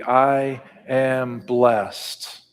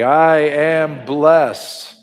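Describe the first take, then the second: First: It is said in a relaxed, conversational speaking voice. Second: It is said firmly with strong, confident emphasis. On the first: "in a everyday language, talking across the table voice" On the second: "Can you say it with conviction?"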